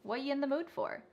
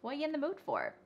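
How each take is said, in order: No difference in how they are said.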